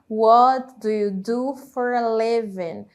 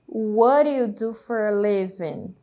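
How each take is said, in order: First: Each word is said separately and fully. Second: The words run together with reduced sounds. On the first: "Se nós formos falar palavra por palavra" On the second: "vai acontecer do verbo ali auxiliar do perder ali o som, né? E fazer essa conexão"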